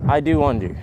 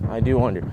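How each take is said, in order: Both takes have the same delivery.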